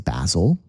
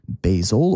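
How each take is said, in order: First: The name is said in a British accent. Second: The name is said in a non-British accent.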